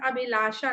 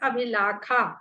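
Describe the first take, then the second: First: The middle consonant is a 'sh' sound. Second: The middle consonant is a 'kh' sound. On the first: The speaker calls it wrong. "Madan अभिलाषा नहीं" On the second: The speaker calls it right. "आपको इसको अभिलाखा पढ़ना होगा"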